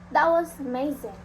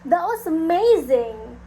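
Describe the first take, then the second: First: Reduced stress makes it sound sarcastic. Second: Strong stress makes it sound excited. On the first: The speaker does not really mean it. "reducing stress may suggest sarcasm" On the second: The speaker is genuinely impressed. "stressing a word more strongly can show excitement"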